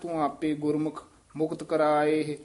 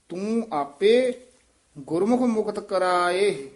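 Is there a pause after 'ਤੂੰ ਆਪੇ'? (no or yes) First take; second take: No; Yes. First: It runs on with no pause after 'ਤੂੰ ਆਪੇ'. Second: There is a pause after 'ਤੂੰ ਆਪੇ'. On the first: The speaker calls it wrong. "ਇਉਂ ਨਹੀਂ ਕਹਿਣਾ" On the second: The speaker calls it right. "ਇੱਥੇ ਵਿਸਰਾਮ ਹੈ ... ਇਸ ਤਰ੍ਹਾਂ ਉਚਾਰਨ"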